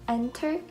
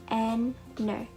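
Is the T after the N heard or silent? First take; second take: heard; silent. First: The T after the N is clearly heard. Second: The T after the N is silent. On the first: The speaker calls it wrong. "We don't pronounce it as enter" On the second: The speaker calls it right. "but enter"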